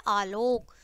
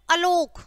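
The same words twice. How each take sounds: First: आलोक with a long opening "aa"; correct long vowel. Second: अलोक with a short first "a"; wrong short vowel. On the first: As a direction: stretch the first vowel of आलोक. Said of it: "जो शुद्ध है वो है आलोक". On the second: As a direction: open अलोक on a quick schwa, not "aa". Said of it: "लेकिन जो शुद्ध है वो है आलोक". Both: Shown as a demonstration.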